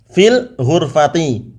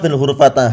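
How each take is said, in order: First: The last word ends in an i vowel. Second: The last word ends in an a vowel. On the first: The speaker calls it right. "Harus dibaca dengan fil ghurfati" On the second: The speaker calls it wrong. "bukan pula fil ghurfata"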